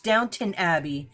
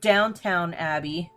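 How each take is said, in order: First: The second syllable of the name sounds like 'tun'. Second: The second syllable of the name sounds like 'town'. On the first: The speaker calls it right. "no, it's Downton Abbey" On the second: The speaker calls it wrong. "It's not Downtown Abbey"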